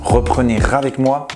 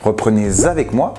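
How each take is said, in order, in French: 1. Un son R relie reprenez à avec. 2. Un son Z relie reprenez à avec.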